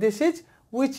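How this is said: There is a short pause after "this is". The speaker calls it right. "এখানে হালকা break দিয়ে"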